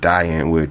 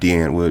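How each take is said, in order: First: The first word sounds like "die". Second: The first word sounds like "dee". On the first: The speaker calls it wrong. "my American brain wants to pronounce it die so bad" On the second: The speaker calls it right. "but it's D. Antwoord"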